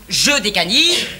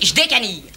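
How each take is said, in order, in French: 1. La voyelle de « je » est prononcée pleinement. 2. La voyelle de « je » est supprimée, contractée. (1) "On ne dit pas" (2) "on dit"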